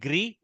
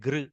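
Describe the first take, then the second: First: A clear i vowel follows the gr sound. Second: No clear i vowel follows the gr sound. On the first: This is how North Indians say it. "North Indians make it little gri" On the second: This is how South Indians say it. "South Indians make it gr"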